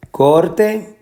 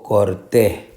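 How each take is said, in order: First: "Corte" with a long, strong COR; stress on first syllable. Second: "corté" with a separated, stressed TÉ; stress on last syllable. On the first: Teacher repeating the choice slowly, stressing COR in "Corte". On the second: Teacher repeating the second option, stressing TÉ in "corté". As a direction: hold back, then hit TÉ in "corté". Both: Shown as a demonstration. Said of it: "La sílaba que lleva la fuerza de pronunciación".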